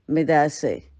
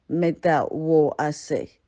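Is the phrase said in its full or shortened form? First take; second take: shortened; full. First: The phrase is clipped into a short three-syllable form. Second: The phrase is said in full, four syllables longer. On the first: This is how city people say it. "just straightforward and easier" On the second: This is how native speakers from the region say it. "They tend to speak it longer and explain things more and um, and have the native tone to it"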